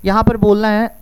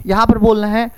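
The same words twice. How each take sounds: The two takes are said the same way.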